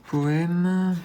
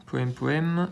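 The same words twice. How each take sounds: First: "Poème" pitched high, a delighted find; light up on "Poème" as you spot it; pleased high "Poème"; excited discovery. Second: Said in the usual way. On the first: Real, not acted. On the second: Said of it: "repeats the word".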